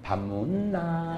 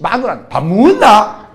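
First: Slow, much softer, with a chuckle; quiet mocking husband. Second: Slow, louder curt demand to the wife; gruff Gyeongsang husband. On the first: Preacher mocking the terse husband, slow, soft and laughing. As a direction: let it die away, amused. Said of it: "마누라, 술집". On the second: Retold or imitated. Terse husband demanding dinner from his wife, slow and loud. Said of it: "술집 여자하고 얘기할 때는".

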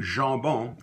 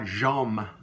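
First: Jambon with a nasal a and no m, zhah-BO. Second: Jambon with a clear m, the wrong way; wrong m sound. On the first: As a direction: say Jambon, dropping the m into the nose. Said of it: "my name, Jambon". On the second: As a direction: show the mistake, voicing the m in Jambon. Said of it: "it's not Jambon". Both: Shown as a demonstration.

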